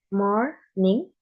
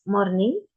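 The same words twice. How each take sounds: First: "morning" split in two, each part rising; syllable by syllable. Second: Said in the usual way. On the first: Shown as a demonstration. Student showing pitch in an example word, syllable by syllable. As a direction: say "morning" as mor, pause, ning.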